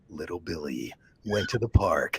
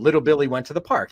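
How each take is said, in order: First: It is said in an intense, serious voice. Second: It is said in a plain, ordinary voice. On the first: Something bad is about to happen to Billy. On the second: Billy is going off to have a good time.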